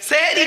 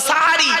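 First: The first vowel is an 'e' sound. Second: The first vowel is an 'a' sound. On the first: The speaker calls it wrong. "সেহরি নয়" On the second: The speaker calls it right. "শব্দটা সাহারি। ... দন্তস্বয় আকার।"

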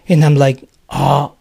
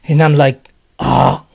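Both takes have the same delivery.

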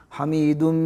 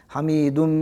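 Both takes have the same delivery.

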